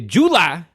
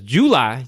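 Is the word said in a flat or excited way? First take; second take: excited; flat. First: The word is said with lively, excited energy. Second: The word is said in a plain, flat way.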